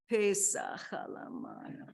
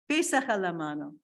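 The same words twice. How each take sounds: First: It is said in a weary, exhausted tone. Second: It is said in a plain, neutral tone.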